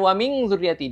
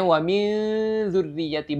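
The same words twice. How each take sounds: First: The n is pronounced as a clear ng sound. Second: The n is a hidden nasal gliding toward dh. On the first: The speaker calls it wrong. "bukan ... ikhfa itu tidak ng atau tidak eng" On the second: The speaker calls it right. "Jadi bacanya"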